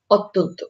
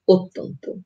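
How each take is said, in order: First: অত্যন্ত with an open ɔ first vowel; অত্যন্ত read as spelled, ɔttonto; read as written. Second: অত্যন্ত with an o first vowel, ottonto; অত্যন্ত said the spoken way; spoken pronunciation. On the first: (অত্যন্ত লিখিত রূপে) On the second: (অত্যন্ত ও-কারের মতো উচ্চারণে) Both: Shown as a demonstration. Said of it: "জফলা যুক্ত হবে তখন".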